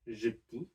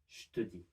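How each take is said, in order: First: The vowel in te is dropped. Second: The vowel in je is dropped. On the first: "You could also say" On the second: "more common to drop the e from je"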